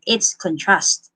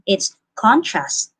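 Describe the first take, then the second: First: The stress is on the second syllable. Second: The stress is on the first syllable. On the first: The word is used as a verb. "if it is used as a verb, it's contrast" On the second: The word is used as a noun. "If it is used as a noun, it's contrast"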